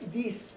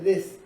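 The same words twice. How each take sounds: First: The vowel is a clear, tense 'ee' sound. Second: The vowel sits between 'ee' and 'eh'. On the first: The speaker calls it wrong. "no se pronuncia this" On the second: The speaker calls it right. "se pronuncia this, entre la i y la e"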